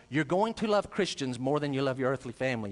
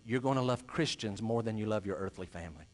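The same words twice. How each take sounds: First: "going to" said in full, firmly; firm restatement. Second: Low, softer, measured assurance; solemn promise. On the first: Preacher answering a startled objector, firmly insisting. Repeats promise after the imagined objection. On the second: Preacher promising the congregation what eternity holds, quietly solemn. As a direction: state it quietly and gravely, pitched low. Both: Real, not acted.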